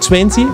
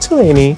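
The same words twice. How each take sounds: First: The T after the N is clearly pronounced. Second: The T after the N is dropped. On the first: "E em vez de você falar vinte" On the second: "você vai falar vinte"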